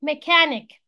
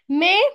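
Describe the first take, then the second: First: Said in the usual way. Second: "ميكانيك" broken as me... kan... ik, long gaps; split into syllables. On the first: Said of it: "ميكانيك دي three syllables". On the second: Shown as a demonstration. Teacher shows three syllables, "ميكانيك" split in three. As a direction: say "ميكانيك" one loud syllable at a time. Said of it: "كلمات فيها three syllables".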